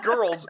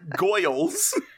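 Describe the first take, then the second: First: The word is said in a plain accent. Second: The word is said in a put-on accent. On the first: The speaker calls it wrong. "Not girls" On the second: The speaker calls it right.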